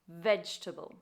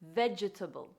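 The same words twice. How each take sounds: First: The word has no extra syllable added. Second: The word has an extra syllable added. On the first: The speaker calls it right. "The correct pronunciation" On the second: The speaker calls it wrong. "commonly mispronounced by adding an extra syllable"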